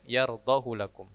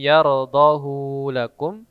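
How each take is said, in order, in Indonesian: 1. Vokal akhir pada yardahu dibaca pendek. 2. Vokal akhir pada yardahu dibaca panjang. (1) "tapi dibaca pendek" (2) "semestinya dibaca panjang"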